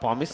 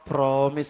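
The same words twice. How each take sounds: First: The word is said without an r sound. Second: The word is said with an r sound. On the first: The oath was not really made. "ప్రామిస్లో నేను ఆరు పలకలేదు" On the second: The oath was really made. "ఆరు కూడా పలికాను నువ్వు అనుకుంటున్నావు"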